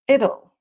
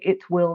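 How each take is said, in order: First: The words are squeezed into one short contraction. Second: Both words are said fully and separately. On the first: The speaker calls it right. "We say it'll" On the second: The speaker calls it wrong. "we don't say it will be tough"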